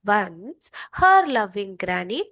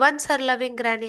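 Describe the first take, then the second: First: There is a short pause right after 'once'. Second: It runs straight on with no pause after 'once'. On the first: The speaker calls it right. "इसलिए मैं एक pause कर रही हूँ" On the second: The speaker calls it wrong. "ऐसे नहीं कह रही हूँ"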